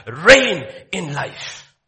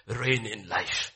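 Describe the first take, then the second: First: "reign in life" proclaimed loud and very slowly, leaning on "reign"; loud slow proclamation. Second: "Reign in life" said softer and slowly, weight on "Reign"; soft slow repeat. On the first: Pastor declaring God's words loudly to the church. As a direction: stretch out "reign in life" like a decree. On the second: Pastor quietly repeating the verse to the listeners. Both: Shown as a demonstration.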